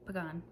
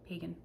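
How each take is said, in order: First: Pagan as puh-GAHN, softly; unsure pronunciation attempt. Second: Pagan as PAY-gun, softly; alternative pronunciation attempt. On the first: Vlogger offering an author's surname, Pagan softly as puh-GAHN. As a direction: say Pagan with second-syllable stress and an AH. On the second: Vlogger offering an author's surname, Pagan softly as PAY-gun. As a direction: say Pagan with first-syllable stress, like PAY. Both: Shown as a demonstration. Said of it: "there's an accent over the second A".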